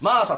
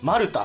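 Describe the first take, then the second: First: The name ends with a 'sa' sound. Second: The name ends with a 'ta' sound. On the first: The speaker calls it wrong. "発音しちゃってたんですけど" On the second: The speaker calls it right. "正式には名前らしい"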